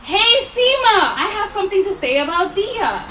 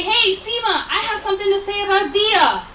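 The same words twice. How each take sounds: First: Louder demo call for the guests to copy. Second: A light, high call across the room; calling out a name. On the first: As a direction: draw out "Seema" so the whole room hears. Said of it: "This is the time where you say". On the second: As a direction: call her name out brightly to get her attention. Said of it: "call out my name". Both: Shown as a demonstration.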